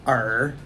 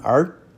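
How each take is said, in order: First: The syllable is said with a dipping tone. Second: The syllable is said with a rising tone. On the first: "Our next character is third tone" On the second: "That second tone"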